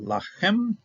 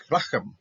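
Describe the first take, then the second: First: Lachem with the last syllable stressed, pitched high; lachem, second syllable higher and held; stress on final syllable. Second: Lachem with the first syllable stressed; lachem, accent moved to the front, falling off. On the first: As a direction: say lachem as la-KHEM, leaning on the end. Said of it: "so that's Milra". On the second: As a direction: say lachem as LA-khem, the ending light. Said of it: "here the accenting went upwards". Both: Shown as a demonstration.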